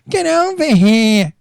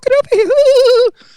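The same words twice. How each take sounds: First: It is said in his tough friends' voice. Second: It is said in a camp, effeminate voice.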